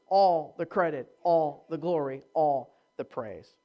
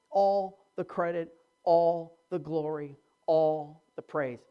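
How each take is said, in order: Both takes have the same delivery.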